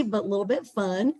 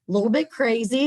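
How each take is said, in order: First: Said in the usual way. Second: Quick, louder, higher burst; playfully excited. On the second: Acted. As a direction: toss off the word crazy playfully. Playful aside about the founder.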